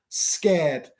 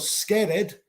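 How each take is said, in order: First: The ending adds no extra syllable. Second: The ending is said as an extra syllable. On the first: The speaker calls it right. "pronunciar básicamente sin el E" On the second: The speaker calls it wrong. "no pronuncio scared. Scared no existe"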